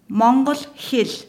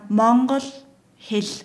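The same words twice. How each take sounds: First: It is said at normal speed. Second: It is said very slowly.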